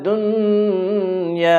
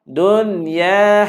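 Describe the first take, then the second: First: The n is held with a nasal hum. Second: The n is short, with no nasal hum. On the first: The speaker calls it wrong. "jangan baca" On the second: The speaker calls it right. "Kita tak baca dengung"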